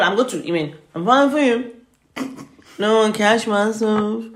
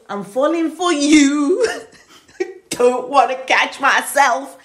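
First: The words are mumbled and slurred together. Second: The words are crisply and clearly enunciated. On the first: The speaker calls it wrong. "his words were garbled" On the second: The speaker calls it right. "it needs to be crisp"

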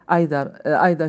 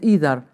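First: Either is said with its Scottish pronunciation. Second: Either is said with its Canadian pronunciation. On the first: "In Scotland we say either" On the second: "he say either"

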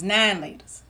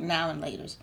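First: 'Now and' is squeezed into one short syllable. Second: Each word of 'now and' is said in full. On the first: The speaker calls it right. "It was nine laters" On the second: The speaker calls it wrong. "mispronouncing it and calling it"

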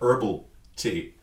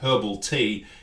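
First: 'Herbal' begins with no 'h' sound. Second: 'Herbal' begins with a pronounced 'h' sound. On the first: This is the American way of saying it. "You have herbal tea" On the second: This is the Australian way of saying it. "we have herbal tea"

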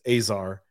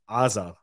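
First: Said the English way, without a throaty sound. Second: Said the Hebrew way, with a throaty ayin sound. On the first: "But in English, it's Azar" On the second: "So in Hebrew, it's Azar"

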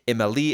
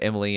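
First: The stress is on the last syllable. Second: The stress is on the first syllable. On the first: The speaker calls it right. "Put the emphasis on the Lee" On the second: The speaker calls it wrong. "I'm going to keep saying it like that just to piss you off"

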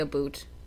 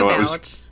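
First: The second vowel sounds like 'oo' in 'boot'. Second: The second vowel sounds like 'ow' in 'out'. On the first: "I don't say a boot" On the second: "I say I about"

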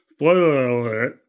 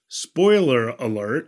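First: It is spoken with the tongue sticking out. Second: It is spoken normally with the tongue inside. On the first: "My tongue out" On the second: "now I can say that"

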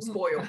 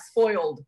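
First: The word ends in 'yo' without an L. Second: The word ends with a clear L sound. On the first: "but S-P-O-Y-O" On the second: "Not spoiled"

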